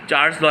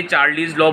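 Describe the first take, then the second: First: "चार्ल्स" as one syllable, l running into s; correct Charles pronunciation. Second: "चार्लीज" said in two syllables, ending in -leez; mispronounced Charles. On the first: Teacher correcting students' slip, "चार्ल्स" pronounced as one syllable. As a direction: say "चार्ल्स" with no vowel between l and s. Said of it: "चार्ल्स law है वैसे". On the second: Teacher showing students' mistaken name for the law, mispronounced "चार्लीज". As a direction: say "चार्लीज" with an extra ee before the final z. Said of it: "गलती से कुछ बच्चे चार्लीज law बोल देते हैं".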